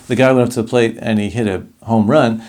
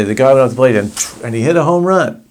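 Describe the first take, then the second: First: Said in the usual way. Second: Acted out, excited. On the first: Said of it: "act out scenes". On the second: Shown as a demonstration. Teacher acting out a baseball home run with excitement. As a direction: tell it like an exciting play-by-play. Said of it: "act out scenes of what you're saying".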